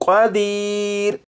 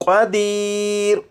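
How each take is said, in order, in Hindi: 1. शब्द बिना किसी स्वर के व्यंजन पर खत्म होता है। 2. शब्द बिना किसी स्वर के व्यंजन पर खत्म होता है।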